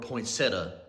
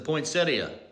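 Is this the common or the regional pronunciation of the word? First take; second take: regional; common. First: It uses a regional, home-area pronunciation. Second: It uses the common, general pronunciation.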